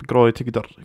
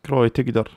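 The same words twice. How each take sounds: The two takes are said the same way.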